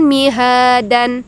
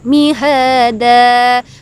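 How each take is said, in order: First: The word ends with a final n sound. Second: The word ends in a long vowel without n. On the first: The speaker calls it wrong. "bukan mihadan" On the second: The speaker calls it right. "Dibaca dua harokat atau satu ketukan. Mihada"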